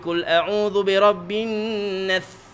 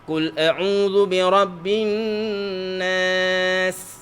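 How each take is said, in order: First: The s is made with the tongue pushed out. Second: The s is made with the tongue tip low. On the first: The speaker calls it wrong. "Atau lidah pergi keluar" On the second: The speaker calls it right. "Lidah akan pergi sana"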